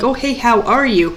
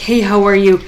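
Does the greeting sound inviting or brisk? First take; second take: inviting; brisk. First: It sounds open and inviting, like a chat. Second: It sounds quick and brisk, in passing.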